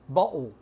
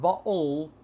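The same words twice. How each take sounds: First: The word ends with a W-like sound. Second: The word ends with a clear L sound. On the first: "Ends with a W" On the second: "not bottle"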